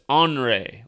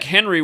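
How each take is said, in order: First: The name begins with an 'on' sound. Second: The name begins with a 'hen' sound. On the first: This is how others actually say it. "the way they're pronouncing it is Henri" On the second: This is how the spelling looks. "it looks like Henry with an I"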